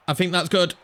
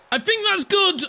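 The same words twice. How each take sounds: First: Said in the usual way. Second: Much higher, eager hope; the ball looks in, get excited; rising excitement as the shot goes in. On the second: Real, not acted.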